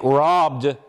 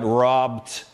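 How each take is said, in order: First: The final consonant is voiced. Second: The final consonant is voiceless. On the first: The speaker calls it right. "is fine" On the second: The speaker calls it wrong.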